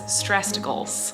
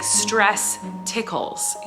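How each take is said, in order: First: It is mumbled and run together as one word. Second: It is said as two separate, clear words. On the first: "because he mumbles" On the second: "he doesn't say like stress tickles"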